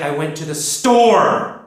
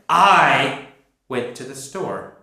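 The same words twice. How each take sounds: First: The word store is stressed. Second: The word I is stressed.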